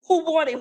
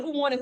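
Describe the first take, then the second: First: High, pushed challenge to unseen foes; taunting call-out. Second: Same challenge, high but softer; taunting echo. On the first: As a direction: call them out, chest forward. Calling out to hidden enemies. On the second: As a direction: repeat the dare, dropping the volume. Repeat of the call-out. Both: Pretend.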